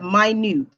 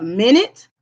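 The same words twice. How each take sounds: First: Minute said as my-NOOT, long i, stress on second syllable; "minute" meaning tiny, my-NOOT; pronounced my-NOOT. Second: Minute said as MIN-it, short i sounds, stress on first syllable; "minute" like the unit of time, MIN-it; pronounced MIN-it. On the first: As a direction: minute said my-NOOT, the word for small. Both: Shown as a demonstration. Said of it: "the other pronunciation of that word is minute".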